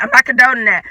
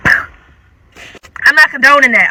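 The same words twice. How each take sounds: First: Said in the usual way. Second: Drawn-out, slow disclaimer. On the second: Shown as a demonstration. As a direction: stretch it out, playfully guilty.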